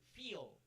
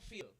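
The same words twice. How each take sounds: First: The vowel is long and tense. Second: The vowel is short and lax. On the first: The speaker calls it right. "the e e is large or tense" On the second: The speaker calls it wrong. "not feel"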